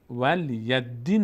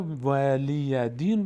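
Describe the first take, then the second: First: ولی دین as "wal-yad-diin", d doubled; mistaken reading. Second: ولی دین as "wa-liii-ya diin"; slow open syllables with a single d in ولی دین; correct reading. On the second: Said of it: "اما بعضا ولی دین رو". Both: Shown as a demonstration.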